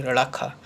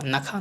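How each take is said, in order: First: रखा opened with a retroflex, flapped nasal; corrected nasal. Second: नखा with a plain dental n; wrong nasal. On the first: Teacher correcting, रखा with retroflex first sound. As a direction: curl the tongue back to start रखा. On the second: Teacher showing the mistake, नखा with plain n. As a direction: say nakhaa simply for नखा. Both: Shown as a demonstration. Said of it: "नखा नहीं".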